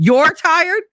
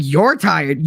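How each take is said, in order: First: Indignant repeat. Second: Said in the usual way. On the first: Retold or imitated. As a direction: throw his words back in disbelief. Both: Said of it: "I was just mad".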